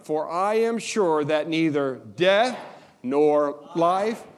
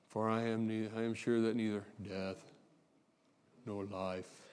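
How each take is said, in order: First: It is read with lots of energy. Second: It is read flatly, with little energy.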